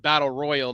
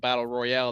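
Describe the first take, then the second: First: The last word sounds like plain English 'royal'. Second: The last word ends in a stressed French-style 'al'. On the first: It names the adult event being announced. The speaker calls it right. "it's the battle royal" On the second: It names the video game mode for kids. The speaker calls it wrong. "not the battle royale. That royale shit is for the fucking kids"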